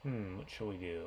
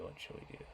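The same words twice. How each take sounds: First: Said in the usual way. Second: Whispered to herself; whispering. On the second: Real, not acted. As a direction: breathe it as a private whisper. Teacher musing over next example.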